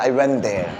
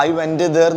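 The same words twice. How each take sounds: First: "went there" joined into one smooth word; linked words. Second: "went there" with went fully finished before there; unlinked words. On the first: Teacher shows learners the right way, went there linked. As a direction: run went straight into there. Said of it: "this is called word connection". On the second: Teacher shows learners what to avoid, went and there unlinked. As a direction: separate went from there with an extra release. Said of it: "I went there എന്ന് പറയരുത്". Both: Shown as a demonstration.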